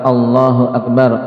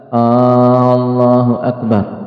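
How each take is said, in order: First: No vowel is drawn out long. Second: The opening vowel is drawn out long. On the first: It states that God is the greatest. The speaker calls it right. "adalah khabar Allahu Akbar" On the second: It turns the phrase into a question. The speaker calls it wrong. "dengan memanjangkan hamzah"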